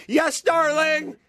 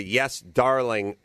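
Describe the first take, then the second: First: High, slow, timid yes darling; fearful reply. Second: Said in the usual way. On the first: Retold or imitated. Grandfather answering his wife, high and timid. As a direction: squeak it out like a scared husband. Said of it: "fear in his voice". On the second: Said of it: "respond with a".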